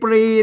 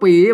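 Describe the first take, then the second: First: The word begins with a pr cluster. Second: The word begins with a plain p sound. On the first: The speaker calls it wrong. "ไม่ใช่ปรี" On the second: The speaker calls it right. "อ่านว่าปี"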